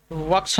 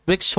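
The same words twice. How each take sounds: First: Vriksh misread as vaksh, without the ri; wrong form of vriksh. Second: Vriksh with the i sound after v; correct vriksh. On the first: Teacher showing students the misspelt word, vriksh wrongly said vaksh. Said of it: "नहीं होता". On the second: Teacher correcting the word for students, vriksh said correctly. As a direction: say vriksh the right way, not vaksh. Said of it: "होता है". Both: Shown as a demonstration.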